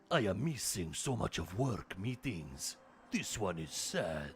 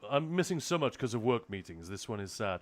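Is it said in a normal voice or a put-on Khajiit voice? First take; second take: Khajiit voice; normal. First: It is said in a put-on Khajiit voice. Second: It is said in his normal voice.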